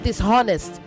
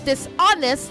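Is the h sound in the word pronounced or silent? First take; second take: pronounced; silent. First: The h sound is pronounced. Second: The h sound is silent. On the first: The speaker calls it wrong. "not dishonest" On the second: The speaker calls it right. "Say dishonest, The H is silent"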